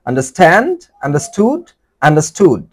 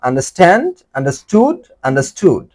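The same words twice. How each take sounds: No difference in how they are said.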